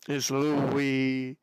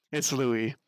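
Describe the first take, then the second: First: "Louis" stretched out, low, LOO-eee; drawn-out LOUIE. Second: "Louis" said plainly as LOO-ee, low; name said as LOUIE. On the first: Streamer settling on the name, long drawn-out "Louis". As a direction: linger on both syllables of "Louis". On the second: Streamer settling on the name, short low "Louis". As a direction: say "Louis" briefly with a silent s. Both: Shown as a demonstration. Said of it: "I'm so bad at this".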